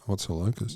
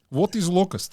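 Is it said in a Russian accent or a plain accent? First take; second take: plain; Russian. First: It is said in the speaker's normal accent. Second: It is said in a put-on Russian accent.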